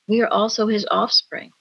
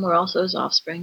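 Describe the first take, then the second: First: It is said with excitement and wonder. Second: It is said in a bored, flat way.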